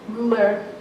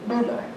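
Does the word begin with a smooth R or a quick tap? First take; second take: smooth R; tap. First: It begins with a smooth English R sound. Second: It begins with a quick tongue tap. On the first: "instead of" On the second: "you'd say ruler, like the, the, the, really quickly tapping"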